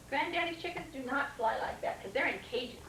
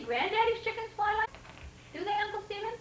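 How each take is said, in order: First: Said in the usual way. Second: High questioning voice, "Granddaddy's" rising; questioning rise. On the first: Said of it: "answers the question". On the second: Real, not acted. Reader asking the child about chickens, rising. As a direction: ask brightly with a rise on "Granddaddy's". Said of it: "asks the child".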